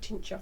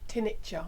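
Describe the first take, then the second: First: No extra vowel is added mid-word. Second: An extra 'i' vowel is added mid-word. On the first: The speaker calls it right. "rather than tincture" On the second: The speaker calls it wrong. "put an extra I in"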